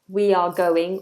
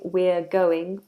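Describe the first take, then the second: First: We and are are said as two separate words. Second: We and are are joined into one syllable. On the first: "the difference in pronunciation between we are"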